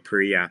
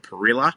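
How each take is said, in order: First: It is said with a Latin American pronunciation. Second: It is said with an Australian pronunciation. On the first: "depending on uh, where in, in Latin America you're from" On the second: "as Australians love to call it"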